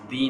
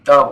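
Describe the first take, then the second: First: The vowel is a long ee sound. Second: The vowel is a short, neutral uh sound. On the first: The speaker calls it wrong. "दी नहीं" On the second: The speaker calls it right. "द बोलेंगे"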